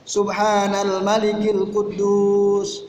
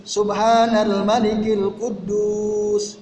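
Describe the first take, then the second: The two takes are said the same way.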